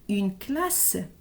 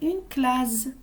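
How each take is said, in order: First: The middle consonant sounds like an s. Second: The middle consonant sounds like a z. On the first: The speaker calls it right. "il faut mettre deux S pour entendre le son S" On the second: The speaker calls it wrong. "un seul S, on va dire une classe"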